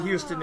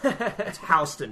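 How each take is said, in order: First: It is said the outsider, non-local way. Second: It is said the local New York way. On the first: The speaker is a tourist. The speaker calls it wrong. "Don't you ever call it Houston in New York City" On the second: The speaker is a New Yorker. The speaker calls it right.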